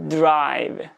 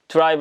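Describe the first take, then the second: First: Throat voicing begins before the d bursts. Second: The d starts plainly, without voicing before it. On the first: The speaker calls it right. "떨림이 시작하면서 하고 터지는 거예요" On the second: The speaker calls it wrong. "국어식으로 발음하면 그냥 밋밋하게"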